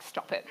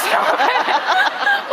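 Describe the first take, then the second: First: Said in the usual way. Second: Much higher and louder, breaking into laughter; laughing protest. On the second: Retold or imitated. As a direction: cry it out while laughing helplessly. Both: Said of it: "And I'm like".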